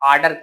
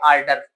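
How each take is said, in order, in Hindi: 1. इस शब्द में r की आवाज़ चुप रहती है। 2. इस शब्द में r की आवाज़ बोली जाती है। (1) "यहाँ पे भी आर साइलेंट" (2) "ऑर्डर नहीं बोलना"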